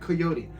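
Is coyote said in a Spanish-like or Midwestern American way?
Spanish-like. Coyote is said with a Spanish-like pronunciation. The speaker calls it wrong. "I'm trying to be too Spanish"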